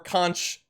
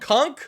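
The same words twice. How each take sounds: First: The word ends with a ch sound. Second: The word ends with a k sound. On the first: "C O N C H" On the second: "K O N K"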